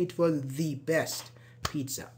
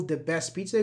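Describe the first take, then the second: First: "the" as a stressed "thee" before best; weight on THE, said "thee", then best pizza; emphatic "the". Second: Said in the usual way. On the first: Shown as a demonstration. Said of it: "when you're emphasizing a word". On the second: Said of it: "when you're emphasizing".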